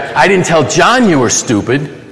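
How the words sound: The word "John" carries the main stress. It was told to someone other than John. "I told somebody else"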